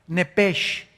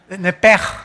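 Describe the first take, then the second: First: The word ends in a soft 'sh' sound. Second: The word ends in a strong throaty sound. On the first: "así como suena N E P E S H" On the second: "ponen mucho énfasis en el j"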